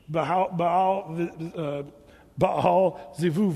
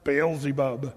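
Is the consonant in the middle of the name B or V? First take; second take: V; B. First: The name has a V sound in the middle. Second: The name has a B sound in the middle. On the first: This is how Hebrew speakers say it. "The B there is more of a V" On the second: This is the familiar form from films. "You've heard that name. It's in the movies"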